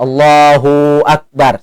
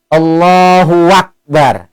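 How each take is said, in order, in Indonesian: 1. 'hu' dipanjangkan ke 'akbar'. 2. Bunyi 'w' menghubungkan 'hu' dan 'akbar'. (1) "Dipanjang ke hu, itu berarti seolah-olah ada huruf waw mati antara Allah dan bar itu. Maka itu pun salah" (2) "Atau nambah huruf waw baris atas"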